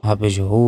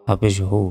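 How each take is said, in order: Both takes have the same delivery.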